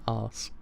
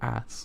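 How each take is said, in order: First: It is said with a British accent. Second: It is said with an American accent. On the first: The speaker calls it wrong. "My British accent always says arse" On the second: The speaker calls it right. "It's ass"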